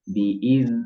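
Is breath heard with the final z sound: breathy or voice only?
voice only. The z sound carries voice with no escaping breath. The speaker calls it right. "suara aja mengalir, tapi nafas tidak"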